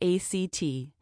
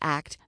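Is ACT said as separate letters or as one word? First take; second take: separate letters; one word. First: It is spelled out letter by letter. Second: It is said as a single word. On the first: The speaker calls it wrong. "not as A-C-T" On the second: The speaker calls it right. "pronounced as the word ACT"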